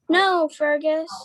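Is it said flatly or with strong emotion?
flatly. It is said flatly, without emotion.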